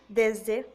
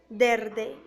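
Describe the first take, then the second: First: The middle consonant is an s sound. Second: The middle consonant is an r sound. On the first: The speaker calls it right. "se debería decir desde" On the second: The speaker calls it wrong. "transforma la S en R"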